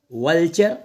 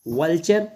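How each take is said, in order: Both takes have the same delivery.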